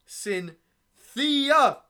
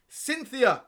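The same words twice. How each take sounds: First: Name broken into drawn-out syllables, ending loud; hammed-up slam poet, stretching the name; slam poetry. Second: Name cried out high and loud; mock-impassioned slam poet's outcry; dramatic falling cry on the name; slam poetry. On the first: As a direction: build to a high, loud final syllable. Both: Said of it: "I'm gonna perform this poem".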